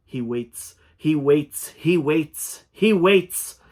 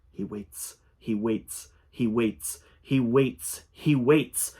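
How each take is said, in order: First: Chanted, build the mantra into a crazed pitch; escalating chant. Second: Chanted, start unvoiced and grow with each repeat; chanting creature. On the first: Acted. Creature's chant swelling to a crazed, high, loud pitch. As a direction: chant climbing higher and louder each time. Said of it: "Laughter joined the chanting". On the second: Creature chanting at the narrator, building from whisper. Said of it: "the same intonation accompanied every utterance".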